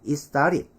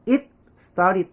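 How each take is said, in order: First: "it started" as "i-starid". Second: "it started" as "it, star-rid"; 받침까지 살린 발음. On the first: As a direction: slip from "it" into "started" with no T. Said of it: "받침을 날려버리는". ('이스따릿'으로 편하게 넘어가기) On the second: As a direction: stop on the T of "it" before "started". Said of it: "받침까지 해야 되니까". ('잇 스따릿'으로 끊어서) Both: Shown as a demonstration.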